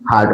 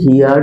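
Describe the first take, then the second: First: The word is one short syllable, like 'hard'. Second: The word has a 'hee-yard' glide before the vowel. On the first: "উচ্চারণ হচ্ছে হার্ড" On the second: "আমরা হিয়ার্ডও বলতে পারি"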